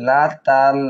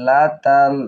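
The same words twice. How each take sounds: No difference in how they are said.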